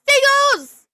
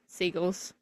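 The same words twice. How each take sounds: First: The word is said loudly with excited energy. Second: The word is said plainly with flat energy. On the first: "Response number three is protect the seagulls!" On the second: "without the exclamation points that time"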